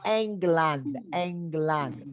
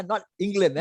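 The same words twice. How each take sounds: First: England ending in a clear open land; German England. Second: England with an English land. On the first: Teacher models German England for students. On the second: Teacher shows students the English-style England. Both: Shown as a demonstration. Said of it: "Remember, land".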